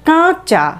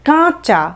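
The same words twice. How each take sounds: Both takes have the same delivery.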